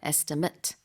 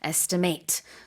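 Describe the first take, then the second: First: The last syllable is a short, weak 'mit'. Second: The last syllable rhymes with 'late'. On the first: It is used as a noun. "명사일 때는 estimate" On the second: It is used as a verb. "동사일 때는 발음이 이렇게 estimate고요"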